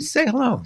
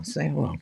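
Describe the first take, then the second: First: High, calling out say hello; host calling out to Ziggy, high; bright call. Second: Quieter echo of say hello; host echoing to himself, softly. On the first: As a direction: coax a viewer to wave. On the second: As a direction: repeat it under the breath. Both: Shown as a demonstration.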